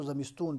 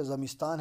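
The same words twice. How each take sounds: First: زمستون read with final "-toon"; Iranian pronunciation. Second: Said in the usual way. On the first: Shown as a demonstration. Teacher reminding students how to read it, زمستون ending in "-toon". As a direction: read زمستون with long "oo" in place of long "aa". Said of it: "زمستون پڑھنا ہے". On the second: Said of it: "زمستان ہے تو زمستون پڑھنا ہے".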